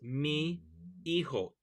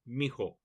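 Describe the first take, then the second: First: The two words are said separately. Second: The two words are squished into one. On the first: The speaker calls it wrong. "It really is mi, hijo, two words, but it's rarely spoken that way" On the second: The speaker calls it right. "It gets squished together into mijo"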